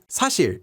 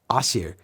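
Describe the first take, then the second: First: The first consonant is pronounced clearly. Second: The first consonant is nearly dropped. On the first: "instead of 사실" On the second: "it almost sounds like 아실"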